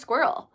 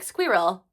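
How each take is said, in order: First: It is said in an American accent. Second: It is said in a British accent.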